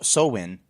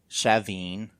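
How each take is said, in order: First: It sounds like 'glow in'. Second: It does not sound like 'glow in'. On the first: "like glow in" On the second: "there's also um, Shaveen as one"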